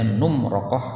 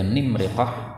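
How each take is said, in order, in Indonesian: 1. Vokalnya u, lalu a. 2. Kedua vokal utama itu bunyi i. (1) "ra-nya di fathah setelah nunnya di dhammah" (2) "nimriqah kasrah semua"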